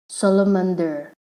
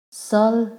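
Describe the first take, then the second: First: Said in the usual way. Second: "salamander" in four syllables with clear pauses; broken into syllables. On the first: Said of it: "if we have to separate this". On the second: Shown as a demonstration. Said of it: "then we have four syllable".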